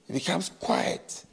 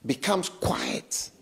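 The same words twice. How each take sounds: First: Hushed whisper showing silence. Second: Said in the usual way. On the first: Shown as a demonstration. Repeats it whispered.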